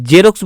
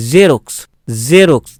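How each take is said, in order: First: "জেরক্স" opened with a hard j as in jet; wrong full j. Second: "জেরক্স" opened with a buzzing z; correct half j. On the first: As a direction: say "জেরক্স" with j instead of z. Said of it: "জেরক্স বলবো না". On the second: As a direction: say "জেরক্স" with z as in zero. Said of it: "জ উচ্চারণ হবে". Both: Shown as a demonstration.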